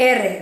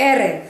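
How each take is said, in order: No difference in how they are said.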